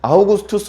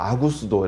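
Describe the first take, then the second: First: The name is said in full, ending in 'tus'. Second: The name is said shorter, ending in 'do'. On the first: The speaker calls it wrong. "발음을 세게 하면 안 돼요 ... 아우구스투스 안 됩니다" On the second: The speaker calls it right. "아구스도 이렇게 해야 돼요"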